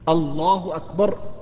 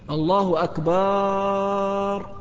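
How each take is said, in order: First: The vowel before the final r is short. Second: The vowel before the final r is drawn out. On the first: It declares that God is greatest. The speaker calls it right. "هذا النطق الصحيح" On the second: The word becomes a plural meaning drums. The speaker calls it wrong. "تغير المعنى"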